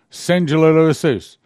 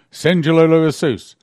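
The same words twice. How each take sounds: First: Slower, drawn-out loud pleading; slow loud plea. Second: Loud fervent pleading cry of the name; loud plea. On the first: Prisoner pleading again, slower and loud. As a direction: stretch it out, loud and fervent. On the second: Recorded prisoner loudly pleading the blood. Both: Retold or imitated. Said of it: "I heard my voice".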